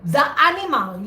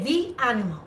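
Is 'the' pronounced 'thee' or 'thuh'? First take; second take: thuh; thee. First: 'The' is said with a short 'thuh' vowel. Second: 'The' is said with a long 'thee' vowel. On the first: The speaker calls it wrong. "you don't say the animal" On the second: The speaker calls it right. "you say the animal"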